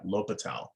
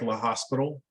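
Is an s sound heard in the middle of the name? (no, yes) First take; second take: no; yes. First: The name is said without an s sound. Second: The name is said with an s sound. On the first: The speaker calls it right. "that's the way you say that" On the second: The speaker calls it wrong. "I know it looks like"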